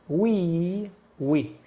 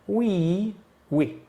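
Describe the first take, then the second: The two takes are said the same way.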